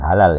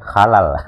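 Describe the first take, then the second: First: The word begins with a plain, soft h sound. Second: The word begins with a rough, throaty kh sound. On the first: The speaker calls it wrong. "bukan halal" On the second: The speaker calls it right. "halal pakai K H"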